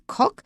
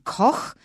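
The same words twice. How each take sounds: First: It is said with an English pronunciation. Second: It is said with German pronunciation. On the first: "we don't have Koch in English, maybe Koch" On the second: "the German Koch"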